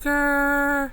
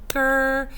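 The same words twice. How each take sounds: First: The syllable is drawn out slowly. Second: The syllable is said quickly and plainly.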